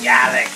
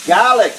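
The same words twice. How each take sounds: First: Said in the usual way. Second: "Garlic" punched high and loud; special garlic. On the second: Shown as a demonstration. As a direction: hit "Garlic" hard and bright for Joyce. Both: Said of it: "We say it like that for Joyce".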